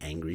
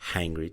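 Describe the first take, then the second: First: The word begins directly with a vowel sound. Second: The word begins with an added h sound. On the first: "she couldn't say angry" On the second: "She was saying hangry, hangry, too much H"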